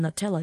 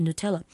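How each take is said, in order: First: "Nutella" said the wrong way, with first syllable as "nuh"; mispronounced "Nutella", opening like "nut"; common mispronunciation. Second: "Nutella" with first syllable as "new"; careful "Nutella", opening with an "oo" sound; corrected pronunciation. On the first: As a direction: say "Nutella" as people often mispronounce it, "nuh-TELL-uh". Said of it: "pronounce it wrong, called Nutella". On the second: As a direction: say "Nutella" as "noo-TELL-uh". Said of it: "It's actually Nutella". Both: Shown as a demonstration.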